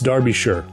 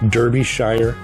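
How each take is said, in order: First: The name is pronounced differently from its spelling. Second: The name is pronounced just as it is spelled. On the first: The speaker calls it right. "It's Derbyshire" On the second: The speaker calls it wrong. "as that's how it's spelled"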